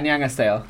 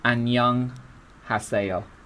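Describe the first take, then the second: First: It is said at normal conversational speed. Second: It is said slowly and carefully.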